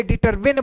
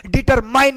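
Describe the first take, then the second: First: "डिटरमिन" ending in short min; correct pronunciation. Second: "डिटरमाइन" ending in mine; wrong pronunciation. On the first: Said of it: "डिटरमिन बोलते हैं". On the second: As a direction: misread it as "डिटरमाइन", eye vowel. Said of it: "डिटरमाइन नहीं बोलते". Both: Shown as a demonstration.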